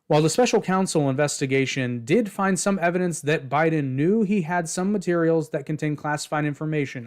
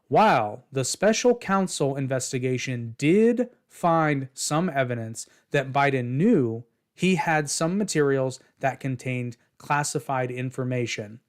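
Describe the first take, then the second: First: It is read at normal speed. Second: It is read slowly and deliberately.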